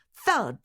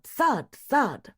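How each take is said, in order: First: Single thud punched a little higher; thud, hit it once; emphatic thud. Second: Thud, thud punched higher and louder; bigger thuds. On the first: Narrator imitating a pillow being pounded, emphatic. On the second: Narrator imitating harder pillow pounding, emphatic. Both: A narrator's reading.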